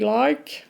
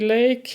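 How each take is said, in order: First: The vowel is said like 'eye' in 'my'. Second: The vowel is said like 'ay' in 'day'. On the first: "in Australian you say like" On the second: "in English you say lake"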